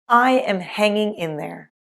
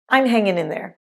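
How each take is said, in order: First: Each word is said fully and separately. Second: The words are contracted and reduced together.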